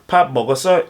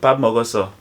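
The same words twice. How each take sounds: First: The pitch rises at the end. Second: The pitch stays flat at the end. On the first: It asks whether someone has eaten. "You have to take note of the rising intonation" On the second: It states that the speaker has eaten. "the son will respond with a flat intonation"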